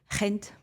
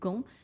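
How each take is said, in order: First: The name is said with a Dutch pronunciation. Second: The name is said with a French pronunciation. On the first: "en Dutch, c'est Gent" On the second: "les Français disent Gand"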